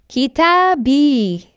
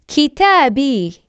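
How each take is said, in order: The two takes are said the same way.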